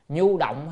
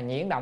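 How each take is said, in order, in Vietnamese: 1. Âm tiết đầu được đọc là nhu. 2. Âm tiết đầu được đọc là nhuyen. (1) "chữ nhuyễn này còn đọc là nhu cũng được" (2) "thôi đọc nhuyễn nó hay hơn"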